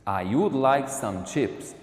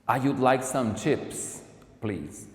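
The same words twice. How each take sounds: First: Said in the usual way. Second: Slow, clear textbook delivery; slow model sentence. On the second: Shown as a demonstration. Teacher modelling a British order for students. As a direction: say "I would like some chips" slowly and clearly. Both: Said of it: "Ela pediria de forma diferente".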